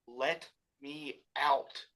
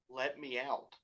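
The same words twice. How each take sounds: First: It is yelled urgently. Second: It is said calmly, not yelled.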